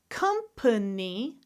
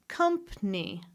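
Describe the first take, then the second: First: It is said with three syllables. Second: It is said with two syllables.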